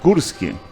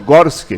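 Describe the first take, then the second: First: The first vowel sounds like a 'u'. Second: The first vowel sounds like an 'o'. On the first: The speaker calls it right. "mas é Gursky" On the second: The speaker calls it wrong. "Eu sempre digo Gorski"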